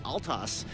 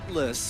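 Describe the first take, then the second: First: The 'l' sound comes before the 't'. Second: The 't' sound comes before the 'l'.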